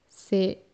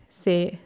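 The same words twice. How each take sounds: Both takes have the same delivery.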